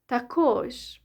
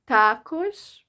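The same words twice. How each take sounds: First: The stress is on the second syllable. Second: The stress is on the first syllable. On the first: "or the second syllable" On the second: "either the stress is on the first syllable"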